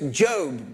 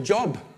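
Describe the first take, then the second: First: It does not sound like the word job. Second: It sounds like the everyday word job. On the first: The speaker calls it right. "Don't you know it's Job, brother" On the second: The speaker calls it wrong. "I couldn't even pronounce the name. And Job, to me, was still Job"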